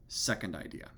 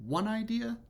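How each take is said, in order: First: "second idea" dropped low; low, falling close on "second idea"; answering second idea. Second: "One idea" swept up high and held; rising, suspended "One idea"; first idea set up. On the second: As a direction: lift "One idea" sharply and leave it hanging. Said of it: "setting up of one idea against". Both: Shown as a demonstration.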